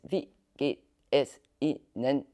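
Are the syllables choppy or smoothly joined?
choppy. Each syllable is short and sharply cut off.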